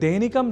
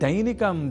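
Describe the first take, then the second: First: The first vowel is a single flat sound. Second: The first vowel glides from a to i. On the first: The speaker calls it wrong. "जैसे अशुद्ध उच्चारण न करें" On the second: The speaker calls it right. "जहां ऐ इस अक्षर का प्रयोग है"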